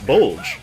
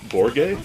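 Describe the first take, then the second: First: The name rhymes with the English word bulge. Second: The name has an 'or' vowel, like Borge. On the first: A preferred anglicized way of saying the name. "But I like saying Bulge" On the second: The way that follows the original Japanese. "if we're following the uh, pronunciation in Japanese"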